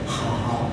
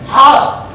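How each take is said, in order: First: The word is said at a calm, normal volume. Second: The word is screamed loudly with high energy. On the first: The speaker calls it wrong. "but not just hao, like that" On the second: The speaker calls it right. "We would scream"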